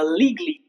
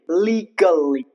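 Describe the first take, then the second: First: The a is reduced or dropped. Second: The a is clearly and fully sounded. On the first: "only when the speakers, native speakers, are speaking very fast" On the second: "Here, A is emphasized"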